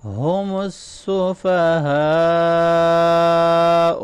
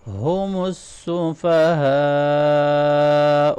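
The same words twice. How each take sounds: First: السفہاء with a heavy ha and a long final madd. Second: السفہاء recited with a heavy ha and a stretched final madd; heavy ha, long madd. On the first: Teacher demonstrating the heavy ha to students, slow recitation. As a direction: recite ہم السفہاء slowly, the ha heavy and the end stretched. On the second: Teacher repeating after explaining the heavy ha, slow recitation. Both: Shown as a demonstration. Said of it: "ہا کو heavy پڑھیں گے".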